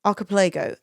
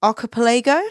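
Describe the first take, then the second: First: Archipelago. with a settled falling tune; landing on the name, now sure; firm final Archipelago; confident statement. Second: Archipelago? with a rising questioning tune; trying the name out, unsure; tentative upward Archipelago?. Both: Real, not acted.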